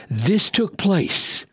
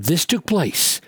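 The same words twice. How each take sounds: First: Slow, stress on took; slow, weighty. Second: Said in the usual way. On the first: Shown as a demonstration. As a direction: dwell on "This took place", leaning on took. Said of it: "slow repeated reading". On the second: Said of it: "repeated plainly".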